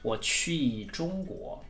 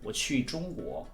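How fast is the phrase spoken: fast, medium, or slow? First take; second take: slow; medium. First: The phrase is spoken slowly. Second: The phrase is spoken at a moderate speed.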